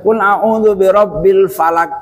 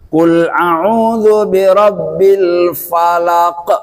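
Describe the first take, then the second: First: The final q stops flat without a bounce. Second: The final q is released with a bouncing echo. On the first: The speaker calls it wrong. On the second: The speaker calls it right. "harus nyantol ya"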